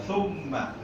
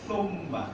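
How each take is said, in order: Both takes have the same delivery.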